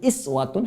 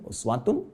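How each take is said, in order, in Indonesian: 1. Kata itu diawali dengan vokal 'i'. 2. Kata itu diawali dengan vokal 'u'. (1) "Warash dengan iswah" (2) "Harakat ... dhammah"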